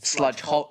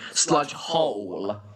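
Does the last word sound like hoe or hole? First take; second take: hoe; hole. First: The last word ends without an L sound. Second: The last word ends with a clear L sound. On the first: The speaker calls it wrong. "I keep pronouncing it sludge hoe" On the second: The speaker calls it right. "It's supposed to be sludge hole"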